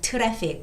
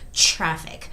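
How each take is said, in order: First: It is said with a Korean accent. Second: It is said with an English accent. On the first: The speaker calls it wrong. "Koreans would say that" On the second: The speaker calls it right. "but it's traffic"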